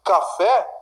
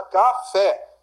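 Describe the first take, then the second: First: Said in the usual way. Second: "Café" split, landing on FÉ; stress on last syllable. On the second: Shown as a demonstration. Teacher showing an oxytone word, stressed FÉ in "Café". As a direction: lean on the final FÉ of "Café". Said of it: "sílaba tônica é a última".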